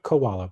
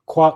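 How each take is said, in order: First: It is said as three syllables, like 'ko-a-la'. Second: It is said as two syllables, 'kwa-la'. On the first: The speaker calls it wrong. "not koala" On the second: The speaker calls it right. "Kuala, not koala"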